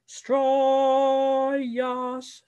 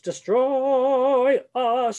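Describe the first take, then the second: First: The words run together with no break before us. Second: A glottal catch separates the words before us. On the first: The speaker calls it wrong. "if you don't have a glottal before us, you're going to go Stroyas" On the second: The speaker calls it right. "It's a glottal"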